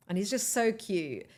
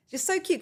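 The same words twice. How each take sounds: First: Said in the usual way. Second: Squealing "Just so cute" up high in delight; delighted high-pitched repeat; gushing high. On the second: Real, not acted. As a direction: gush it, pitch jumping way up. Gushing about the crew member.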